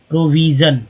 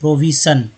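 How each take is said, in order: First: The middle consonant is a voiced zh sound. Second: The middle consonant is a voiceless sh sound. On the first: The speaker calls it right. "सटीक है" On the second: The speaker calls it wrong. "प्रोविशन कभी आपको नहीं लगेगा"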